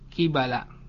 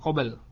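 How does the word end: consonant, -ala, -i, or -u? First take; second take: -ala; consonant. First: It is said qibala, ending in -ala. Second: It is said qabl, ending in a consonant. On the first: The speaker calls it right. "kibala dibaca dengan mengkasrohkan qaf dan memfathahkan ya, memfathahkan ba" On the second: The speaker calls it wrong. "bukan qabl"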